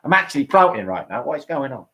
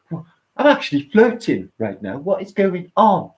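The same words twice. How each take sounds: First: Rough attempt at a Cockney accent; Lee, Cockney accent. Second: Mock amazement, rising higher and slower at the end; bad impression of a blissed-out friend, not yet Cockney; failed Lee impression. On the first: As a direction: imitate a friend with broad Cockney vowels. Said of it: "He talks like a Cockney". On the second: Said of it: "he don't talk like that".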